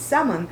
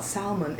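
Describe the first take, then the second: First: "salmon" with a silent L; "salmon" said SAM-un; correct salmon. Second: "salmon" with the L sounded; "salmon" said SAL-mun; mispronounced salmon. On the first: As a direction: drop the L from "salmon". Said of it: "the L is silent". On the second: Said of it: "it's not salmon". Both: Retold or imitated.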